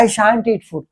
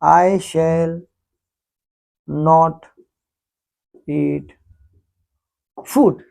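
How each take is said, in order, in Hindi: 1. 'Shall not' को एक शब्द में जोड़कर बोला जाता है, shan't। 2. 'Shall not' को दो पूरे शब्दों की तरह बोला जाता है। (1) "शॉर्ट फॉर्म में कहो" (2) "पूरा उसको बोलो"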